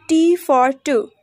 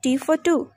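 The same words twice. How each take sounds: First: Said in the usual way. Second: "for" short and reduced; weak form of FOR. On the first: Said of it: "For example". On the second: Shown as a demonstration. Teacher showing learners weak forms, "for" as a short 'fuh'. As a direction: run "for" quickly into "two". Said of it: "We pronounced in a weak form".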